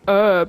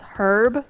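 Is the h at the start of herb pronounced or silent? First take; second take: silent; pronounced. First: The word begins without any h sound. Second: The word begins with an audible h sound. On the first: "the H is silent" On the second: "I was pronouncing it the British way"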